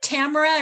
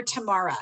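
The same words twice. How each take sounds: First: Tamara said as TAM-uh-ruh; Tamara rhyming with camera; first-syllable stress on Tamara. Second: Tamara said as tuh-MAR-uh; Tamara as tuh-MAR-uh, falling at the end; middle-syllable stress on Tamara. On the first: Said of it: "is it Tamara or Tamara". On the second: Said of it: "It's Tamara". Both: Shown as a demonstration.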